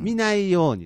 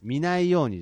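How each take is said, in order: First: It is said with standard pitch accent. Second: It is said with dialect-accented pitch. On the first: The speaker calls it right. "見ないようにです。" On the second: The speaker calls it wrong. "見ないようにじゃなくて"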